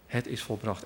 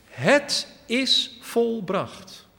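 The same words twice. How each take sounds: First: Said in the usual way. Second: High, slow, ringing cry of Jesus; loud cry. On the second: Acted. Jesus on the cross calls out in a loud, slow voice. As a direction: call it out slowly and loud, the last word from the cross. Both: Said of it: "Dat riep hij met luider stem".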